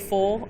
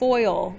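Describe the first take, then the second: First: The vowel is short, sounding like 'full'. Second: The vowel is a clear 'oy' diphthong. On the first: The speaker calls it wrong. "The first time I heard a student in math say full" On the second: The speaker calls it right. "There's an I in there"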